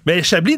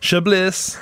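First: Said in the usual way. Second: Chablis said American style, "sha-BLISS" with the final s sounded, a little higher; American pronunciation. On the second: Retold or imitated. Host imitating American tourists saying the wine name. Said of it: "disent toujours encore aujourd'hui Chablis".

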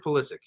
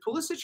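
First: "Pulisic" ending in a hard K. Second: "Pulisic" ending in a CH/J sound; soft CH ending. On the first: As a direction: say "Pulisic" as PULL-ih-sick. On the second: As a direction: say "Pulisic" as PULL-ih-sitch. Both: Shown as a demonstration. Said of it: "is it Pulisic or Pulisic".

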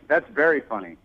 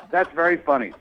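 First: Said in the usual way. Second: Laughs through the words; amused little laugh while speaking. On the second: Real, not acted. Caller laughs at prank accusation.

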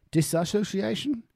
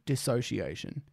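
First: "Disassociation?" with the extra "a", rising high in doubt; doubting pronunciation. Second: "Dissociation" said as dis-so-see-AY-shun, no extra "a" syllable; corrected pronunciation. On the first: Unsure streamer testing the longer version of the word. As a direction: ask "Disassociation?" with a questioning upturn. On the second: Checking a word aloud on stream, the corrected pronunciation. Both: Shown as a demonstration. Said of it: "Did I say disassociation?".

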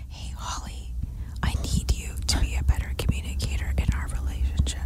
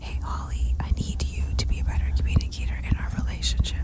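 First: Unvoiced whisper, fast; right in your ear. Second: Fast unvoiced whisper. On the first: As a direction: whisper it close into her ear. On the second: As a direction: breathe it right into her ear. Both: Shown as a demonstration. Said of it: "whispering into your ear".

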